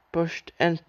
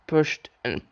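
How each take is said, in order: Both takes have the same delivery.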